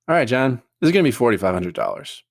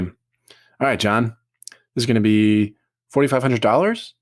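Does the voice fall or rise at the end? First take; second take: fall; rise. First: The pitch falls at the end, like a statement. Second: The pitch rises at the end, like a question. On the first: The speaker calls it right. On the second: The speaker calls it wrong.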